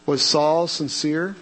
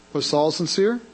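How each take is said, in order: Both takes have the same delivery.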